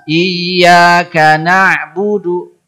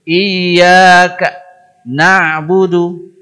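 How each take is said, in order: First: The two words flow together without a break. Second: There is a break between the two words. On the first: The speaker calls it right. "Dia harus lancar" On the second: The speaker calls it wrong. "Jadi dia putus"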